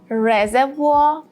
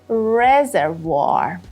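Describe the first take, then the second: First: British accent, the later r sounds dropped. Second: American accent, the later r sounds pronounced. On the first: "The British pronunciation is reservoir" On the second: "the American pronunciation is reservoir"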